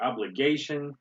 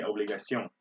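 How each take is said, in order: First: Said in the usual way. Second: Obligation said the French way, ob-lee-gah-SYOHN; French obligation with a nasal close; French pronunciation. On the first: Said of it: "or obligation". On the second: Shown as a demonstration. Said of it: "in French we say obligation".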